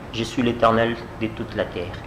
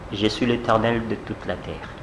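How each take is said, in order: Both takes have the same delivery.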